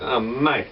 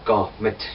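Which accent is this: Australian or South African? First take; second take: Australian; South African. First: An Australian accent, with drawn-out words. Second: A South African accent, short and sharp. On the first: "in the Australian accent" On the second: "South Africans are short and sharp"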